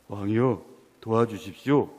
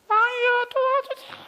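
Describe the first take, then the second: First: It is said in a male voice. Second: It is said in a put-on female voice.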